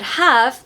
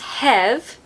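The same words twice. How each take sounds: First: The vowel is a short a sound. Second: The vowel is a short e sound.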